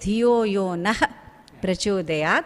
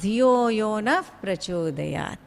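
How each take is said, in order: First: The words are said separately, as written. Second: The words are joined with linked sounds. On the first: "When we write, we write it as" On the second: "when we join two words, it becomes"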